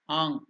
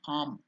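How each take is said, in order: First: The syllable ends in a lingering nasal ng sound. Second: The syllable ends with closed lips, an m sound. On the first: "the correct pronunciation is, it should go and stay in the nasal sound" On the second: "it will become Am"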